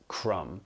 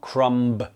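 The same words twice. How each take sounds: First: The word ends on M with no B sound. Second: The word ends with an audible B sound. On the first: The speaker calls it right. "Notice here that the B is not pronounced" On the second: The speaker calls it wrong. "It is not crumb"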